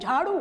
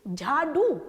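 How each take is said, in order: First: The middle consonant is a retroflex flap. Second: The middle consonant is a retroflex stop. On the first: The speaker calls it right. "हमारा उच्चारण है झाड़ू" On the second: The speaker calls it wrong. "झाड़ू नहीं"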